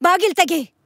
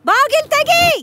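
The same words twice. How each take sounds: First: Said in the usual way. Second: Bang out the order to open up; shouted demand. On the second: Acted. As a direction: sister shouting at the door to open.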